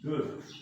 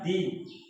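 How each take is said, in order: First: The vowel is a short neutral schwa. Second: The vowel is a closed é sound. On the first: The speaker calls it right. "lorsque la voyelle E n'a pas d'accent aigu, c'est de" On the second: The speaker calls it wrong. "Nous ne devrions pas lire ça D"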